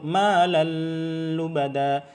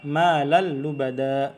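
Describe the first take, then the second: First: The merged sound is held long with nasal hum. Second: The n merges quickly into the l without hum. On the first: The speaker calls it wrong. "Terlalu lama, dengan gunnah itu salah" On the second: The speaker calls it right. "Dibaca malal lubada"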